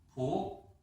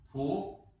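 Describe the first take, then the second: First: The pitch rises from mid to high. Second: The same.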